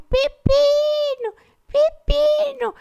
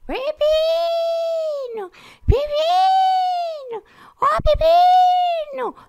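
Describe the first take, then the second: First: High, stretched calls; calling out. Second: Long, high drawn-out calls; calling out. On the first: Mother walking the neighbourhood calling for Pepino, high slow calls. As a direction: call his name slowly across the neighbourhood. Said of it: "ela anda pelo bairro". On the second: Mother searching the street for her lost parakeet, high drawn-out calls. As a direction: wail his name down the street. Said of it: "sai pela rua gritando". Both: Retold or imitated.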